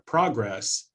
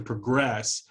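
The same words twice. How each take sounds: First: The stress is on the first syllable. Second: The stress is on the second syllable. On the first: It is used as a noun. "the stress shifts from the first syllable ... in the noun" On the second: It is used as a verb. "to the second syllable in the verb"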